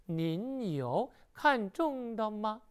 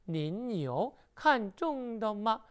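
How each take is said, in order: No difference in how they are said.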